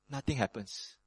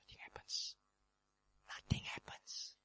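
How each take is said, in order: First: Said in the usual way. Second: Hushed, breathless whisper. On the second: Acted. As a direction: whisper it like awed silence. Silence after the wind.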